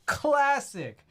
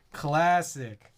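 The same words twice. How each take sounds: First: Classic jumped way up in pitch; squeaky high Classic. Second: Said in the usual way. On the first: Acted. Streamer echoing a chat catchphrase, much higher. Repeated, second take pitched up.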